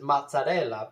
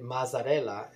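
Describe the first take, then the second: First: Mozzarella with a TS sound, louder; own Italian pronunciation. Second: Mazzarella with a plain Z sound; broadcasters' pronunciation. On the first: Giving his own version of the mayor's Italian name, mozzarella with TS. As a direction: say mozzarella Italian-style, "mot-sa-RELL-a". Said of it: "I would pronounce it". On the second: Showing how TV pronounced the mayor's name, Mazzarella with plain Z. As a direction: say Mazzarella as "maz-a-RELL-a", no T. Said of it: "but they were pronouncing it". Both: Shown as a demonstration.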